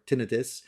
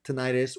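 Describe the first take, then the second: First: Tinnitus said TIN-ih-tus; first-syllable stress. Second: Tinnitus said tih-NYE-tus; second-syllable stress. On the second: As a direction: stress the middle of tinnitus, with a long i as in "night". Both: Shown as a demonstration. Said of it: "depending on how you like to pronounce it".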